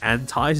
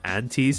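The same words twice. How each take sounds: First: The word is said the American way. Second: The word is said a non-American way.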